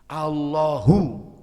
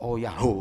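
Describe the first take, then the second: First: The word starts with a clear 'al' sound. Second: The word starts with an 'oh ya' sound. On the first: The speaker calls it right. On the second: The speaker calls it wrong. "sampeyan baca zikirnya salah"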